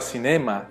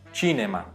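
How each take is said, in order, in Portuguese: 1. A palavra começa com som de s. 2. A palavra começa com som de ch. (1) "Já a palavra cinema" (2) "em italiano a gente fala cinema"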